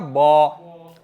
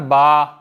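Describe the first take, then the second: First: The syllable is said heavy with a rounded vowel. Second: The syllable is said light with an open vowel.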